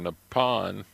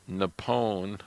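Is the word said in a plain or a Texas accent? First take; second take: Texas; plain. First: It is said in a Texas accent. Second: It is said in a plain, neutral accent.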